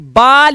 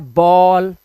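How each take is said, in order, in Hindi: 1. इस स्वर की ध्वनि खुली ah जैसी है। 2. इस स्वर की ध्वनि गोल होंठों वाली aw जैसी है। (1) "कभी भी बाल या बैल नहीं होता" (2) "इसका उच्चारण होता है बॉल"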